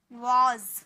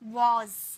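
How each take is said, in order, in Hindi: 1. शब्द का अंत z साउंड से होता है। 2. शब्द का अंत z साउंड से होता है।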